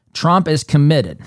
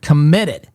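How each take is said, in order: First: Said in the usual way. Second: Committed said louder and leaned on hard; stress on committed. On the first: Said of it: "I stress that word". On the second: Shown as a demonstration. Host to radio listeners, stressing committed. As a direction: punch the word committed. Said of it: "I stress that word, committed".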